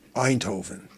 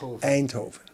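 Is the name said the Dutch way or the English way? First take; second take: English; Dutch. First: The first vowel is said the English way. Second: The first vowel is said the Dutch way. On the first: The speaker calls it wrong. "you say Eindhoven" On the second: The speaker calls it right. "But it is Eindhoven"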